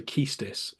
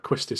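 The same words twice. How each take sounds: First: Keistis said KEES-tis; variant name Keistis. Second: Quistis said KWIS-tis. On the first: Retold or imitated. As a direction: say Keistis with no W, long EE. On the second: Shown as a demonstration. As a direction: start Quistis with a "kw" sound. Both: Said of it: "Some people say Keistis".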